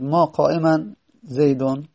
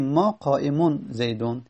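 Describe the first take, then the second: First: قائما said with final "-an"; disallowed word ending. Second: قائمون said with final "-un"; allowed nominative ending. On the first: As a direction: end قائما on "-an" before زیدون. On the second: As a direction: end قائمون on "-un" before زیدون. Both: Shown as a demonstration.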